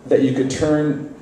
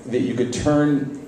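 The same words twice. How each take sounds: The two takes are said the same way.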